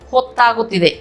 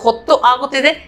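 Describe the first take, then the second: First: It is said shortened, joined into one word. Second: It is said as two separate full words.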